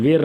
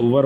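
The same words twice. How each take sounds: First: Teacher showing the common mistake; wrong pronunciation. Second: वर said short as one syllable, wer; teacher modelling वर for students; correct pronunciation. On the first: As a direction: contrast the wrong वेयर against वर. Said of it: "वर पढ़ते हैं". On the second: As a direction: say वर with no long eh glide. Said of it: "वर, याद रखिए इसको". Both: Shown as a demonstration.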